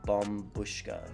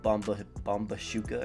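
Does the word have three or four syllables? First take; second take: three; four. First: The word is said with three syllables. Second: The word is said with four syllables. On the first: The speaker calls it right. "Yes, that's how you pronounce it" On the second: The speaker calls it wrong. "I used to pronounce it Bombushuka or something like that"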